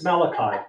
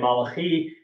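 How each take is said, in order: First: The name is pronounced the English way. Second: The name is pronounced the Hebrew way. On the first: The speaker calls it right. "he corrected me. No, it's Malachi" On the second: The speaker calls it wrong. "I pronounced it the Hebrew way"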